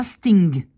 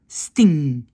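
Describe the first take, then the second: First: Sting with a hard g popped at the end; louder sting finishing on a released guh; wrong final g. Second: Sting ending on a humming ng, no g; sting with no released g; correct nasal ng. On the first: Retold or imitated. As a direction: mimic the mistaken g ending of sting. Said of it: "C'est pas sting". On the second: Shown as a demonstration. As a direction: let sting ring out on ng. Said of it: "C'est juste un son N".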